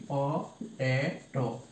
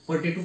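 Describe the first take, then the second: First: পটেটো broken up slowly for counting syllables. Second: Said in the usual way. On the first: Shown as a demonstration. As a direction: slowly split পটেটো into three separate syllables. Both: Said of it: "যদি আমরা পটেটো pronunciation করি".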